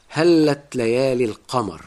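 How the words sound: It is said in Classical Arabic pronunciation. "بتقولها بالفصحى"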